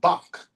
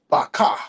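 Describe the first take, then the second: First: The word ends in a closed consonant sound. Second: The word ends in an extra vowel sound. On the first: The speaker calls it right. "So that would be Bach" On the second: The speaker calls it wrong. "You wouldn't say baka"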